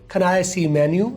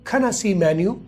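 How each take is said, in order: First: The word 'I' sounds like a shorter 'ay'. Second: The word 'I' is a very short 'uh'. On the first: "ये भी कर सकते हैं" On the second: "ये सबसे बेहतर है"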